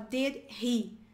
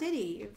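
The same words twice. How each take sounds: First: The two words are said separately and clearly. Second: The two words run together quickly. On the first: "mas você pode falar did he" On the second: "Sorry, foi rápido"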